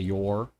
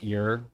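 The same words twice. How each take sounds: First: The vowel is a full 'or' sound. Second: The vowel is reduced to an 'er' sound. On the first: "instead of your" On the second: "I'll say things like your"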